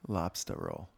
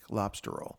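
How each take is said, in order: First: Lobster is said in a New England accent. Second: Lobster is said in a plain general accent. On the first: The speaker calls it right. "There you go" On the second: The speaker calls it wrong. "I think you're saying it wrong"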